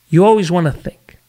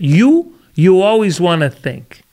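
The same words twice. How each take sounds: First: It is said in a more natural, ordinary voice. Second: It is said in an exaggerated, put-on voice.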